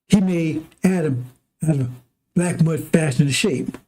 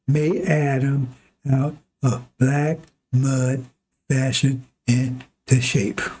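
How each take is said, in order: First: It is said at normal speed. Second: It is said very slowly.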